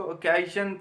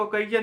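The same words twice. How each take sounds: First: "occasion" read as "o-KAY-shun", with a soft sh; correct pronunciation. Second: "occasion" misread as "kay-jun", with a j sound; wrong pronunciation. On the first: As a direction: say "occasion" with sh, not j. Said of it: "इसको occasion पढ़ेंगे". ("occasion" को "ओकेशन" की तरह, श की आवाज़ से) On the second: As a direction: say "occasion" with j in place of sh. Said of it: "इसको occasion नहीं पढ़ेंगे". ("occasion" को "कईजन" की तरह, ज की आवाज़ से) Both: Shown as a demonstration.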